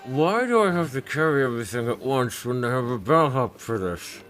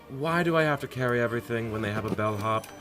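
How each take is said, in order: First: It is mumbled, muffled by a strap. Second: It is spoken clearly, without muffling.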